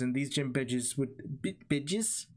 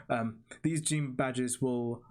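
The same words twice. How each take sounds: First: Slipping into a New Zealand accent; New Zealand accent on badges. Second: Said in the usual way. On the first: Real, not acted. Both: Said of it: "a New Zealand accent came out of me there".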